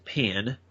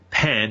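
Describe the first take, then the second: First: The vowel is a closer 'ih' sound. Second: The vowel is an open 'eh' sound.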